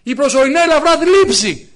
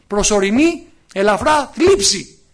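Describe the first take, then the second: First: Said in the usual way. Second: Προσωρινή ελαφρά θλίψη slowly, each word weighed, θλίψη drawn out; slow, stressed reading. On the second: Shown as a demonstration. Preacher repeats the verse for the congregation, slow and stressed. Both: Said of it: "Ακούστε τι λέει".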